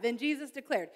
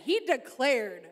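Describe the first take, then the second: First: Said in the usual way. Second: Declared drawn out slowly with weight; slow, weighty declared; slow emphatic declared. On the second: Shown as a demonstration. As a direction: lean into declared like a proclamation. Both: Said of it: "He didn't just say, he declared".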